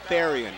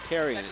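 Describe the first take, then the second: First: The name is said with an H sound. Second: The name is said without an H sound. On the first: The speaker calls it right. "It's Therian. You pronounce the H" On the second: The speaker calls it wrong. "I've been mispronouncing. I've been saying"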